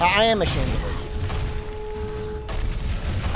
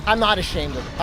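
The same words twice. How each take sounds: First: Slow, drawn-out confession; slow, guilty drawn-out admission; sheepish admission. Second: Said in the usual way. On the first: Real, not acted. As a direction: own up to it slowly.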